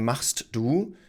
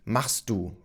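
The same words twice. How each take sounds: First: The phrase is said in full, each word clear. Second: The phrase is reduced, words run together. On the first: "we rarely say machst du" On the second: "we usually say machst du"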